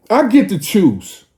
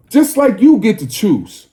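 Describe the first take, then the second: First: "get" pushed hardest, falling after it; stress on get. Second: "you" pushed hardest, falling after it; stress on you. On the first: Speaking to the crowd, claiming his own right to choose, stress on "get". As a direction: lean on the word "get". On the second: Turning the same right back on the listeners, stress on "you". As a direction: land the weight on "you". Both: Real, not acted. Contrasting who gets to choose.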